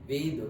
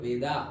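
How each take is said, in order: First: The word ends on the consonant d. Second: The word ends with an added a vowel. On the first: This is the original native pronunciation. "ऐसे actually वेद ही pronounce करते हैं" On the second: This is the English way of saying it. "English में ये लगाते हैं इसलिए हम वेदा पढ़ते हैं"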